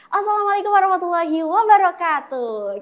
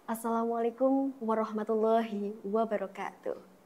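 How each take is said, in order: First: It is said playfully in a bright, shrill voice. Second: It is said slowly and solemnly with weight. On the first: This is an informal, fun event. "lebih enjoy, lebih fun gitu" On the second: This is a sacred wedding ceremony. "Jadi lebih hikmat, lebih ngena"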